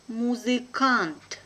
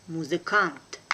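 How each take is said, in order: First: Slow and careful, drawn out for learners; teacher's careful slow reading. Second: Brisk, natural native speed; quick native pace. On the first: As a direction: spell it out slowly for the class. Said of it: "one first time will be slow". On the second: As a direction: say it fast like a native. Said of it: "second time will be quickly, like a native". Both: Shown as a demonstration.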